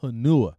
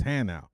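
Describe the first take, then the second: First: Hanua, quoted as huh-NOO-uh; rejected pronunciation. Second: Hanau, corrected to HAN-ow; corrected pronunciation. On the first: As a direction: stress the middle of "Hanua", ending in "-nua". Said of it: "it's Hanau". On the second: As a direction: give "Hanau" two syllables, ending in "-now". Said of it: "it's not Hanua". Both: Retold or imitated.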